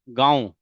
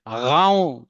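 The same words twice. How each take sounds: First: It starts with a plain g sound. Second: It starts with a throaty gh sound. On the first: The speaker calls it right. "अगर हम बोलेंगे भाई गाँव" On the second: The speaker calls it wrong. "उसकी जगह बोल दें ... तो गलत बोलेंगे"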